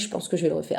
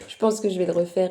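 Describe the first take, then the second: First: It is said in an altered, unusual voice. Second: It is said in her normal voice.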